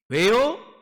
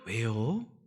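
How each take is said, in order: First: It is said curtly, with a harsh ending. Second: It is said gently, with a soft ending. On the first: The speaker calls it wrong. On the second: The speaker calls it right.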